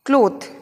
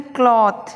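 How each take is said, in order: First: क्लॉथ with a long O; क्लॉथ rhyming with "both"; common pronunciation. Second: क्लॉथ with an open AW; open, emphatic vowel in क्लॉथ; correct pronunciation. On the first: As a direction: say क्लॉथ as "klohth". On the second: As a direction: say क्लॉथ as "klawth". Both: Shown as a demonstration. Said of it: "किस प्रकार से बोलना है".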